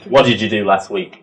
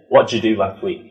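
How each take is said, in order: First: 'What did you' is said as three full syllables. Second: 'What did you' is reduced to two syllables. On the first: The speaker calls it wrong. "We won't go" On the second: The speaker calls it right. "We just say"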